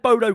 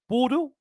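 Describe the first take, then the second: First: The name sounds like 'Bo-doh' with clear syllables. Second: The name sounds like the French city Bordeaux. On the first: "I've been saying Bodo Glimt for a long time" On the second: "I believe they're being pronounced as Bordeaux"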